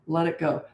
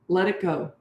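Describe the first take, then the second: No difference in how they are said.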